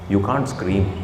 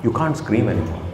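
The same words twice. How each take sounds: First: Softer and lower, voice sinking; quiet fasting voice. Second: Softer and lower, voice gently sinking; quiet fasting voice. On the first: Preacher tells the congregation fasting hushes you, quiet. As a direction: let the voice drop as if weak from fasting. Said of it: "your voice goes down". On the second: Preacher shows how a fasting voice goes down, quiet. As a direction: let it fall away, no force left. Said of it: "it's kind of natural". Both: Shown as a demonstration.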